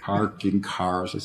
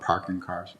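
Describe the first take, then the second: First: It is said in a standard American accent. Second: It is said in a Boston accent.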